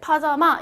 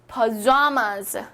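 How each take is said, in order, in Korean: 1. 가운데 음절에는 강세가 없어요. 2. 가운데 음절에는 강세가 있어요. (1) "이렇게 파자마 이렇게 발음을 하지 않고" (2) "여기서는 좌 여기에 강세가 있습니다"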